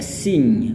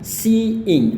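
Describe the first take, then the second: First: The vowels merge into one short syllable. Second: The word is said as two separate syllables. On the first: The speaker calls it wrong. "Kita nggak boleh sambungin kayak sing, bukan" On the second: The speaker calls it right. "Kita harus katakan seeing"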